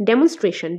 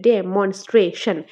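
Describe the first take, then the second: First: Said in the usual way. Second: Slow demonstration split as ডে - মন - স্ট্রে - শন; syllable by syllable. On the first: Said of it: "syllable division করলে". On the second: Shown as a demonstration. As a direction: say demonstration in four slow, separate beats. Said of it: "syllable division করলে চারটা আসে".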